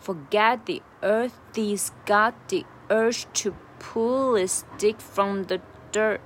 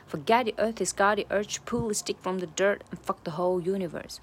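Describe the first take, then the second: First: Slow, louder, deliberate demo; slowly drawn-out phrase; slow linked take. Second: Said in the usual way. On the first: Shown as a demonstration. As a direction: link it all up slowly, leaning on the beats. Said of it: "慢速的来一下". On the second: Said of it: "把它连起来".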